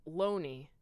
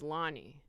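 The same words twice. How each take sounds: First: LONNIE said with a long O, "LOH-nee"; mispronounced name. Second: LONNIE said with an open "ah", "LAH-nee"; correct name pronunciation. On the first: Mom character getting the daughter's name wrong, LONNIE as "LOH-nee". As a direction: say LONNIE as if it rhymed with "pony". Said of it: "I said a name wrong". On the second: Explaining the daughter's real name, LONNIE as "LAH-nee". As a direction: say LONNIE to rhyme with "Ronnie". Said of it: "when her name was Lonnie". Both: Shown as a demonstration.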